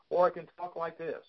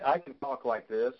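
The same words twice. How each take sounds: First: A touch higher, livelier voice; higher pitch. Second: Said in the usual way. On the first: Shown as a demonstration. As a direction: voice lifted a bit higher for energy. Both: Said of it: "a little higher pitch".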